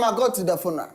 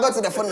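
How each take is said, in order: First: The words are spoken slowly, at normal pace. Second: The words are spoken at a medium speed. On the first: "then slower, please. Speak like normal" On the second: "So do it medium"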